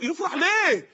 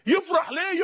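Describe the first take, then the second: First: ليه hit hardest, falling at the end; stress on ليه. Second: يفرح punched, ليه thrown away; stress on يفرح. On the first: Preacher asking the crowd, stressing ليه. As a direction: lean on ليه as the real question. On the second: Preacher repeating the question, stressing يفرح. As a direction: lean on يفرح in wonder. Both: Shown as a demonstration.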